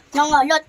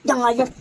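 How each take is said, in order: First: Nangalot said again, louder; louder repeat. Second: Said in the usual way. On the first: Real, not acted. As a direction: repeat Nangalot with more force. (ulitin nang mas malakas)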